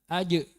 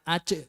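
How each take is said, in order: First: The final j releases without escaping air. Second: Air audibly escapes after the final j. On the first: The speaker calls it right. "kemudian dipantulkan aj" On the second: The speaker calls it wrong. "jangan aj. Kalau aj itu berarti keluar anginnya"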